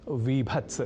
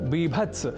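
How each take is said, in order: First: The word begins with a v sound. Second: The word begins with a b sound. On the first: The speaker calls it wrong. "न की विभत्स" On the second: The speaker calls it right. "बीभत्स रस न की विभत्स"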